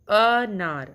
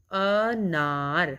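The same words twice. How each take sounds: First: Said in the usual way. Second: अनार stretched out slowly, each sound held; slow drawn-out demo. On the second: Shown as a demonstration. Teacher showing children where अनार sounds from, slow and drawn out. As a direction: draw out अनार syllable by syllable. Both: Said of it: "अ वर्ण का उच्चारण कर रहे हैं".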